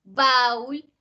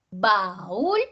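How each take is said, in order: First: "baúl" as one syllable, BÁUL, stress on a; wrongly as diphthong. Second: "baúl" in two syllables, ba-ÚL, rising on ú; hiatus. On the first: Teacher contrasting a wrong reading, "baúl" as one-beat BÁUL. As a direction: squash "baúl" into a single BÁUL. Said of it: "otra cosa sería si fuera". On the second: Teacher showing syllables opening, "baúl" said as ba-ÚL. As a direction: split "baúl" and lift the ú. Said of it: "se abren las sílabas". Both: Shown as a demonstration.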